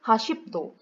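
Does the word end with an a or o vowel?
o. The word ends with an o vowel. This is the Gangwon dialect form. "menukar huruf A kepada O di akhir perkataan"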